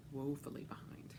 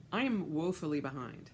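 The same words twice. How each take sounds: First: Breathy whispered echo; whispering. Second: Said in the usual way. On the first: Shown as a demonstration. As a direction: whisper it to yourself. Repeats line as whisper.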